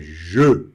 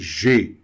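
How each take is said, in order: First: The vowel is the neutral uh sound. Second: The vowel is another non-neutral E sound. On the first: The speaker calls it right. "é je" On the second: The speaker calls it wrong. "e nem G"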